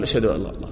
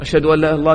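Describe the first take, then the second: First: Quiet repeating. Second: Muezzin's call. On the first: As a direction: lower and softer, repeating under the breath. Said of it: "تقول". (ترديد بصوت منخفض وهادئ) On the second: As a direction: sound it like the muezzin calling. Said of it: "تعرفون". (نداء المؤذن بخفة) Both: Shown as a demonstration.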